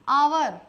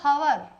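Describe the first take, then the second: First: The word begins directly with a vowel sound. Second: The word begins with an audible H sound. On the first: The speaker calls it right. "पढ़ोगे सही, आवर" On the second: The speaker calls it wrong. "अगर बोला हवर ... होगा वो गलत"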